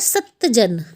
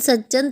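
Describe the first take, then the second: First: A half t sound comes before the j. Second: Said quickly, the t merges into a double j. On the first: "ये आधा त है" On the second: "जल्दी जल्दी बोल के"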